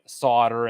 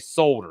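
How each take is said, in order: First: The word is said the American way. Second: The word is said a non-American way. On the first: "That's how they say solder in the States" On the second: "They don't say solder"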